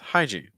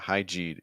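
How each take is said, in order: First: The stress is on the first syllable. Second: The stress is on the second syllable. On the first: The speaker calls it right. "the stress will be on high actually" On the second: The speaker calls it wrong. "you're stressing gene ... It's not hygiene"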